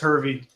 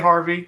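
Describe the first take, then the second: First: The first syllable sounds like 'her'. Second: The first syllable sounds like 'har'. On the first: The speaker calls it right. "it's like it looks. It's Hervey" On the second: The speaker calls it wrong. "Everyone wants to say Harvey"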